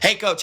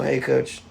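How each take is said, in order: First: It is said loudly, clearly and confidently. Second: It is mumbled quietly and hesitantly. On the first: The speaker is confident and engaged. The speaker calls it right. "Very few go" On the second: The speaker lacks confidence. The speaker calls it wrong. "Most kids will go, "Hey coach," like this"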